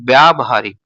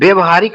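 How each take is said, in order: First: The vowel after 'vy' is a long 'aa'. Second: The vowel after 'vy' is a short 'a'. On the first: The speaker calls it right. "ये आपका शुद्ध है" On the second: The speaker calls it wrong. "व्यवहारिक नहीं होता है दोस्तों"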